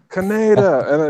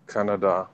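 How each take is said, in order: First: The name is yelled as in the original dub. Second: The name is said as in the redub. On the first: This is how the original dub said it. The speaker calls it wrong. "the original dub of them yelling" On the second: This is how the redub says it. The speaker calls it right. "they did change it up to uh, Kanada"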